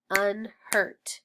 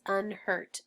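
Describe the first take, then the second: First: "unhurt" split as un, pause, hurt; two separate beats on "unhurt"; snapped syllables. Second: Said in the usual way. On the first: Shown as a demonstration. Teacher snapping out unhurt, split into syllables. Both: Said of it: "Let's snap it".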